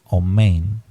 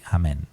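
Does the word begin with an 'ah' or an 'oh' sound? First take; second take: oh; ah. First: It begins with an 'oh' sound and ends 'ein'. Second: It begins with an 'ah' sound and ends 'en'. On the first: "hay hermanos que dicen omein" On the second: "Los judíos sefardíes pronuncian amén, así"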